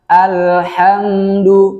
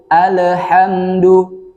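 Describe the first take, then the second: First: The l is held cleanly without a bounce. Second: The l is released with a bouncing echo. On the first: The speaker calls it right. "Yang benar alhamdu tanpa pantulan" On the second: The speaker calls it wrong. "salahnya di sini dibaca qalqalah"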